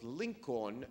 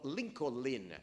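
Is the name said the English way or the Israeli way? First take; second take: English; Israeli. First: The name is said the standard English way. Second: The name is said the way Israelis say it. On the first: The speaker calls it right. "his name was Lincoln" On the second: The speaker calls it wrong. "as they pronounce it"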